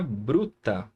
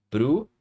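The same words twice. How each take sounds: First: Said in the usual way. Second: "Bruta" as bru, long pause, ta; split into syllables. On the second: Shown as a demonstration. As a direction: say "Bruta" one syllable at a time. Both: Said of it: "aqui na sílaba bru".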